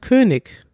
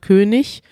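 First: It uses a southern German pronunciation. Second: It uses a northern German pronunciation. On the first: "in Süddeutschland" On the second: "in Norddeutschland"

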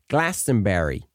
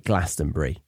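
First: It is said in a North American accent. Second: It is said in a British accent. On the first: The speaker calls it wrong. "I heard a few of the North American singers saying Glastonbury" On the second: The speaker calls it right. "Say Glastonbury"

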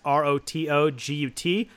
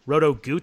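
First: The last syllable has a short 'uh' vowel. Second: The last syllable has a long 'oo' vowel. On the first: This is the usual pronunciation of the handle. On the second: This is how one particular colleague pronounces it.

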